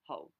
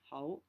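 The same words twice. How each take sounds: First: The word is said on a low tone. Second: The word is said with a mid rising tone. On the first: "low tone" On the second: "which is a mid rising Ho"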